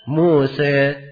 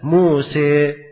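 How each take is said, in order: First: The final vowel leans slightly toward 'i'. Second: The final vowel sits midway between 'a' and 'i'. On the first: "itu imalah sugro, kecil" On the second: "imalah kubra, dia seimbang antara kasrah dan apa? Fathahnya. Lebih jelas"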